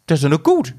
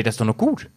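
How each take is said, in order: First: Lightly voiced imitation of Jay, a bit louder; mock Jay with a rising end; imitating Jay. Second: Said in the usual way. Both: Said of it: "Und Jay".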